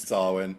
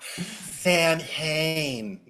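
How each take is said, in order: First: It is said differently from its spelling. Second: It is said as spelled, Sam Hain. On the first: The speaker calls it right. "She would know it's Samhain" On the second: The speaker calls it wrong. "Tiffany wouldn't mispronounce it though"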